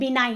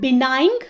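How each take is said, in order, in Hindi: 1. शब्द का अंत n ध्वनि से होता है, g नहीं। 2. शब्द का अंत कठोर g ध्वनि से होता है। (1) "इट इज़ बिनाइन, इसमें जी साइलेंट होता है" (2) "इट इज़ नॉट बिनाइंग"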